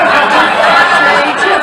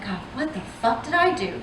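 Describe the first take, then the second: First: Louder, faster hammed-up panic, ending on a rising do; mock panicked outcry. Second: Much softer, deflated what the fuck did I do; quiet despair. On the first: Comic telling the crowd her panicked reaction, hammed-up. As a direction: fake freak-out, pushing it out fast. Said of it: "and I'm like". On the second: Retold or imitated. Comic quietly repeating her panicked question, much softer. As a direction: mutter it under your breath, defeated. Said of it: "So I'm like".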